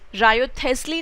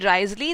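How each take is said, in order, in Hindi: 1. यह नाम तीन अक्षरों में बोला जाता है। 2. यह नाम दो अक्षरों में बोला जाता है। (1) "रायोथेस्ली नहीं बोलेंगे" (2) "the pronunciation is either रिजली और राइजली"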